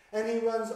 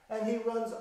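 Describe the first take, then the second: No difference in how they are said.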